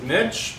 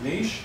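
First: Niche rhyming with "pitch"; niche as "nitch". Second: Niche rhyming with "leash"; niche as "neesh". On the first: Teacher giving her chosen pronunciation to students, niche said "nitch". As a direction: say niche as "nitch", short i and a tch ending. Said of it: "I'm gonna pronounce it niche". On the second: Teacher offering students the other pronunciation, niche said "neesh". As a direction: say niche as "neesh", long ee and a soft sh ending. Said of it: "but you can pronounce it niche". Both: Shown as a demonstration.

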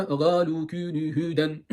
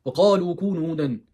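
First: Galu kûnü hûden, g ile ve ince ünlülerle, yavaş; GALU'yu g'yle, ü'leri incelterek uzat; yanlış Türk okuyuşu. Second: Kalu kûnü hûden, gırtlaktan kalın kaf ve kalın u ile; KALU'yu kalın k ile, uzatarak oku; doğru Arapça okuyuş. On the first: Retold or imitated. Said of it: "Bu mu Arapça kardeşlerim". (kaf yerine g'li galu taklidi) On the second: Shown as a demonstration. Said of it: "Yani bu mu Arapça?". (Arapça kaf'lı kalu)

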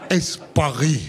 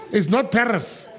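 First: Paris the French way, "paɹi" with no s. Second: Paris with the s sounded, pɛɹəs; "Paris" said with a clear English s. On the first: Told in Paris how to say it, "Paris" the French way. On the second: Told in Paris he'd said it wrong, "Paris" with an s. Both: Retold or imitated. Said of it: "'Cause I heard when I got there".

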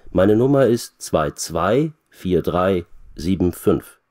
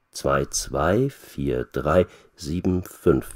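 First: Said in the usual way. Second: Slow, careful, digit by digit; slow repeating. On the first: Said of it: "wiederholt Petra". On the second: A narrator's reading. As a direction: repeat it slowly while writing it down. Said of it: "wiederholt Petra und schreibt die Nummer auf".

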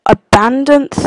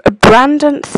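No difference in how they are said.

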